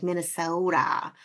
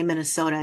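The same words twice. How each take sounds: First: Put-on Minnesota accent, drawn-out "Minnesota"; mimicked Minnesota accent. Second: Said in the usual way. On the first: Host imitating outsiders mocking her home state, mock Minnesota accent. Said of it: "people who aren't from around here will say". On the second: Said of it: "people who aren't from around here will say, like, when you say Minnesota".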